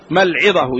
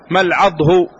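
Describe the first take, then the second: First: The word is said like al-'idah, with two syllables. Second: The word is said like al-'adh, one closed syllable. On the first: "وعلى وزن العدة" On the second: "على وزن الوجه"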